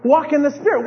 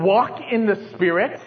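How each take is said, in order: First: Said in the usual way. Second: "Walk in the spirit?" said as a puzzled question with a rising end; "Walk in the spirit?" turned into a mild questioning rise. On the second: Shown as a demonstration. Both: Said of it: "What's that mean?".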